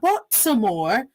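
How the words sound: The T in the middle is clearly pronounced. The speaker calls it wrong. "it's not Baltimore ... No one walks around pronouncing it as a T"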